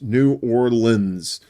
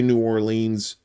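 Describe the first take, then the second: First: Orleans is said the local way, ending 'lins'. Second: Orleans is said the Yankee way. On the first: The speaker sounds like a local. The speaker calls it right. "like O R L I N S. Say it like that" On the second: The speaker sounds like an outsider. The speaker calls it wrong. "please don't say New Orleans. Don't don't Yankeefy yourself"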